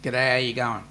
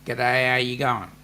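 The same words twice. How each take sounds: First: "G'day, how you going?" slurred into one word; run together. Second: "G'day, how you going?" run together again, one smooth word. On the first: Host teaching Aussie lingo, words slurred together. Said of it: "slam a whole sentence into one word". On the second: Host repeating lazy Aussie greeting as one word. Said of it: "is one word". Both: Shown as a demonstration.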